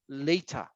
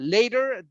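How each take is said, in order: First: It is said in a British accent. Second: It is said in an American accent. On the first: "they might say later" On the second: "we might say like uh, later"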